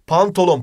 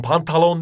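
First: Pantolon with o in the middle; correct pronunciation. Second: Pantalon with a in the middle; wrong pronunciation. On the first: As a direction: say pantolon, pan-to-lon. (doğru: pantolon, o ile) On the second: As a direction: say pantalon, pan-ta-lon. (yanlış: pantalon, a ile) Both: Shown as a demonstration. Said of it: "pantalon değil".

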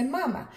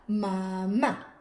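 First: "mamá" stressed on the first syllable, MA-ma; acento en la primera. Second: "mamá" stressed on the final syllable, ma-MÁ; acento en la última. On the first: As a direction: say "mamá" as MA-ma, weak final syllable. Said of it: "Porque si no, dice mamá". ("mamá" con la fuerza en la primera sílaba) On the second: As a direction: draw "mamá" out slowly, landing on MÁ. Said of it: "queremos que diga mamá". ("mamá" lento, con la fuerza en la última sílaba) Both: Shown as a demonstration.

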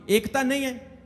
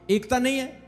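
No difference in how they are said.

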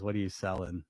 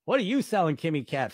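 First: Said in the usual way. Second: A mock-suspicious question. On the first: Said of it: "Kimmy Cat says". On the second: Real, not acted. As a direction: throw the question back at her, teasing.

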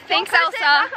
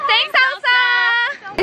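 First: Said in the usual way. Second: Higher, drawn-out group chant; cheering thanks. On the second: Shown as a demonstration. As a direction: sing out a grateful cheer, stretched slowly. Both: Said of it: "So everyone say".

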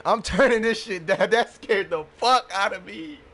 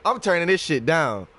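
First: Laughing through the words; relieved laughter. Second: Said in the usual way. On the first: Real, not acted. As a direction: still laughing from the fright. Laughing after jump scare.

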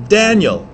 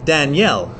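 First: "Daniel" with DAN high and strong; stress on first syllable. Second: "Danielle" with the weight on -elle; stress on last syllable. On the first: Teacher contrasts boy's and girl's name, stress on the first syllable. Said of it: "Daniel as a guy's name". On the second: Teacher contrasts boy's and girl's name, stress on the last syllable. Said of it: "as a girl's name". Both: Shown as a demonstration.

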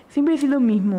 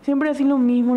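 First: A hint of a snide friend, imitated; mocking nasty tone. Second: A snide friend, slightly louder; mocking nasty tone. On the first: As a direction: mimic his snide line lightly. (imitando con desprecio leve) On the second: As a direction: throw his words back, mildly mocking. (imitación burlona leve) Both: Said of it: "en un tono muy hijo de puta".

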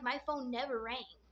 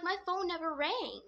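First: Said in the usual way. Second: Higher-pitched pleading insistence; retold protest. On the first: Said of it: "just hoping he believes me". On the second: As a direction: protest your innocence to an annoyed brother. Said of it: "I'm trying to tell him".

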